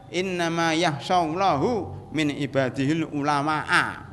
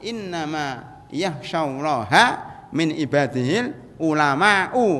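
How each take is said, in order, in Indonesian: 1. Nama Allah berakhir dengan u; ulama berakhir dengan a. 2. Nama Allah berakhir dengan a; ulama berakhir dengan u. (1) "Salah baca dia" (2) "kan gitu"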